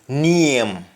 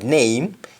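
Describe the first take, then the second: First: It is said in a Jamaican accent. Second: It is said in a standard English accent. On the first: "you say name" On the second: "Instead of name"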